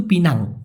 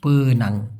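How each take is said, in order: First: পিনাং said with a clear i sound, pi-nang; careful correct পিনাং with i in the first syllable; correct Pinang. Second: পেনাং said with an e sound, pe-nang, low and soft; the common anglicised পেনাং with e in the first syllable; English-style Penang. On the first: Teacher to learners, showing the right way to say Pinang. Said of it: "মূলত সঠিক উচ্চারণ কিন্তু পিনাং হওয়া উচিত". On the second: Teacher to learners, showing the common English-style Penang. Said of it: "অনেকে ইংলিশের ভাঁজ ধরে পেনাং লেখে". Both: Shown as a demonstration.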